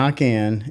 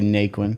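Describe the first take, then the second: First: The name is said with a French pronunciation. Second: The name is said with an American pronunciation. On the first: This is the family's original pronunciation. "is how it would be said French" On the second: This is the changed pronunciation used after moving. "people can't say it right, so we'll just say Naquin"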